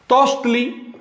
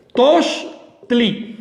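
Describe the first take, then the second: First: Said in the usual way. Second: Tochtli said as toch-tli with a small break before the suffix tli; split into syllables. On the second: Shown as a demonstration. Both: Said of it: "Lo separé para que vean bien el sufijo".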